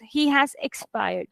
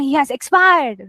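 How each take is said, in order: First: Slow, softer, somber delivery; sad sentence. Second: Exclaimed as if good news; wrongly upbeat. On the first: Teacher shows how to read news of a death, sad and subdued. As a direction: let the news sink, slowly and softly. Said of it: "if it's a sad sentence". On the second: Teacher shows how not to read a sad sentence, exclaimed. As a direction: punch out the sad line too brightly. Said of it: "So you're not gonna". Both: Shown as a demonstration.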